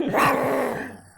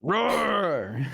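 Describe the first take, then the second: First: Loud playful mock roar; dinosaur voice. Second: High playful mock roar; dinosaur voice. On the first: Mock roar answered, louder. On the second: Mock roar at each other.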